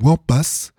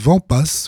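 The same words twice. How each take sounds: First: The name begins with a W sound. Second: The name begins with a V sound.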